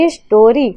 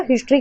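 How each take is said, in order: First: हिस्टोरी split into three separate beats; syllable by syllable. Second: Said in the usual way. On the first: Shown as a demonstration. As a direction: say हिस्टोरी as हिस-टो-री, a small gap after each syllable. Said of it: "हिस्ट्री का तीन, जैसे कि". (हिस्टोरी को तीन हिस्सों में तोड़कर) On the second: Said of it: "हिस्ट्री का तीन".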